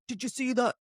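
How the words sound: It is said in a harsh, aggressive tone. This is how it came across in the recording. "it was more aggressive"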